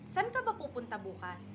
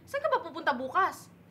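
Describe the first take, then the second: First: It is said with ordinary Tagalog intonation. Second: It is said with Visayan intonation on Tagalog words. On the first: It sounds like a neutral question. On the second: It sounds as if the speaker is angry.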